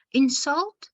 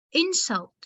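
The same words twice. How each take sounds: First: "insult" stressed on the second syllable, in-SULT, rising; verb stress. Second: "Insult" stressed on the first syllable, IN-sult, falling; noun stress. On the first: Teacher shows a word as a verb, "insult" stressed on SULT. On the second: Teacher shows a word as a noun, "Insult" stressed on IN. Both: Shown as a demonstration. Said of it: "the pronunciation can be different".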